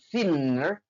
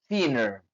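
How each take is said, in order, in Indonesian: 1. Bunyi n di tengah dibunyikan panjang, dobel. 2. Bunyi n di tengah pendek, cukup satu n. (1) "bukan thinner" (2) "dilafalkan cuma cuma satu N sehingga dibaca thinner"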